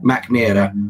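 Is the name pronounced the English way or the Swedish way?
English. The name is said with English pronunciation.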